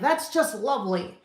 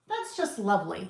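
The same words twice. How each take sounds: First: It sounds sarcastic and displeased. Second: It sounds warm and sincere. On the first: Something is actually bad. "Not like" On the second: Something really is nice. "usually it's a nice thing"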